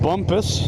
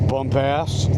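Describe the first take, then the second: First: The second syllable is a reduced 'pus' sound. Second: The second syllable is a full 'ass' sound. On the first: "Pronounced Bumpus" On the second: "how you may choose to pronounce it"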